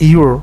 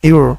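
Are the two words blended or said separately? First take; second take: blended; blended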